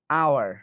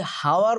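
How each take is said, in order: First: আওয়ার starting straight on the vowel "ow"; silent h. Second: হাওয়ার with an audible h at the start; h sounded. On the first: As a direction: say hour as "ow-er", আওয়ার, with no h. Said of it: "উচ্চারণ কি হয়েছে?". ("হ" ছাড়া জোরে আওয়ার উচ্চারণ) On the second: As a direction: say hour wrongly as "how-er", হাওয়ার. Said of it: "এটা যদি হাওয়ার উচ্চারণ হইতো". (হাওয়ার-এর শুরুতে "হ" স্পষ্ট উচ্চারণ) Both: Shown as a demonstration.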